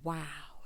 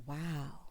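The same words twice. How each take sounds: First: WOW drawn out with more weight; wow with oomph. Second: Low, soft imitated wow; underwhelmed wow. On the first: Retold or imitated. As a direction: give WOW some admiring oomph. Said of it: "oomph that it did when Michael". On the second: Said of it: "didn't give me that same oomph".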